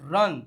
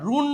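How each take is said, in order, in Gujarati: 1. સ્વર ટૂંકો 'uh' અવાજ છે. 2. સ્વર લાંબો 'oo' અવાજ છે. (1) "બટ રન" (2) "નો કહેવાય"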